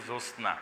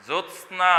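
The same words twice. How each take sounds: First: জ্যোৎস্না said as josna, no t; common simplified pronunciation. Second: জ্যোৎস্না as jot-sna, t fully sounded; careful Sanskrit pronunciation. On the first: Teacher showing what many people say, simplified pronunciation. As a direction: drop the t in জ্যোৎস্না, just jos-na. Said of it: "অনেকে উচ্চারণ করি". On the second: Teacher showing the Sanskrit form, careful full pronunciation. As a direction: keep the t-s cluster crisp in জ্যোৎস্না. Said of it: "এটি একটি সংস্কৃত শব্দ". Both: Shown as a demonstration.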